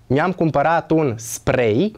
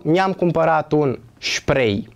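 First: Spray with S, sprej, rising; correct spray. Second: Spray with SH, shprej, falling; wrong spray. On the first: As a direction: end on spray with a clean S. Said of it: "se pronunță spray". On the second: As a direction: end on spray with SH. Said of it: "pronunțată greșit spray". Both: Shown as a demonstration.

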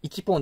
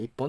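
First: 一本 with 一 as full "ichi", then "pon"; 一本 without the doubled consonant, "ichi-pon"; unmerged counter reading. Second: 一本 run together as "ippon"; 一本 contracted, "ip-pon"; merged counter reading. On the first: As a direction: say 一本 in separate parts, ichi-pon. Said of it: "一本って言うよりかは". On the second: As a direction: say 一本 with a short catch before "pon". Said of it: "一本って言った方が言いやすい". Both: Shown as a demonstration.

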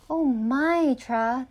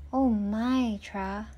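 First: Raised-voice exclamation of dismay; louder. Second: Subdued, mildly dismayed sigh of words; sad. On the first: The book warns Tra about watering, louder. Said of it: "louder now". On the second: The ignored book laments to Tra, sad. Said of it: "the book said sadly". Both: A narrator's reading.

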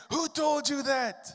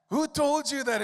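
First: Retold tearful outburst. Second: Higher, louder repeat of the cry; retold tearful outcry. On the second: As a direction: echo his shock, pushing harder. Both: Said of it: "he jumped up crying".

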